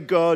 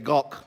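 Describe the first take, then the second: First: The word ends without a throaty sound. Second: The word ends with a throaty back sound. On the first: The speaker calls it wrong. "Don't say go" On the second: The speaker calls it right. "say gok, get it from the back of the throat"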